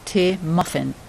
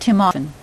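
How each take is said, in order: First: The m slides into the next word. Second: The two words are said separately.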